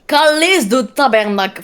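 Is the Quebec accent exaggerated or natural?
exaggerated. The Quebec accent is heavily exaggerated. The speaker calls it wrong. "là, t'exagères trop, ça se voit"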